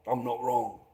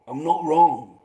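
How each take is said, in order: First: Low, muttered certainty; quiet insistence. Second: Punchier, louder repeat; louder insistence. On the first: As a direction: say it softly to yourself. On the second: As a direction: insist it out loud. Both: Acted.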